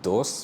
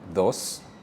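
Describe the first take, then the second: First: It begins with a hard English d sound. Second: It begins with a soft th-like sound. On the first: The speaker calls it wrong. "it's not dos" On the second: The speaker calls it right. "pronounced like a T H rather than the English D sound"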